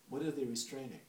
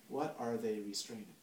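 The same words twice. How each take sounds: First: It is said in his normal voice. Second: It is said in a put-on psychoanalyst voice.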